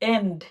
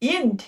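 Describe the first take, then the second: First: The vowel sounds like 'eh'. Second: The vowel sounds like 'ee'. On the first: The speaker calls it right. "এটার উচ্চারণ হবে এন্ড" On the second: The speaker calls it wrong. "No"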